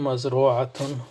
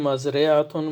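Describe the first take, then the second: First: The vowel after the r is u. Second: The vowel after the r is i. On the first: "three different types of vowel" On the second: "here re"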